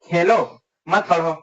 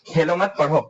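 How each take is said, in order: First: The pause comes after Khelo. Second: The pause comes after मत.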